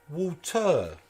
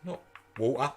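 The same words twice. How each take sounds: First: "water." with a clear t, WAW-tuh, as mum taught; imitating mum, crisp t in "water."; "water." pronounced properly, t sounded; mum's correct pronunciation. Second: "water." with a glottal stop for the t, WAW-uh; Cockney "water.", t swallowed; the wrong way. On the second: Retold or imitated. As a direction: mum mocking the dropped t in "water.". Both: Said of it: "As my mum used to say".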